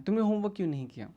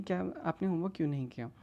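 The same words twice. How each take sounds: First: Quick, mildly accusing question; taunting teacher. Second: Mildly gentle, polite question; affectionate asking. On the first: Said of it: "वो उसे ताने मार रहा है". (ताने भरा तेज़ सवाल) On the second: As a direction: ask kindly, without any taunt. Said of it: "प्यार से सवाल नहीं पूछता". (प्यार से पूछा सवाल) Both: Acted.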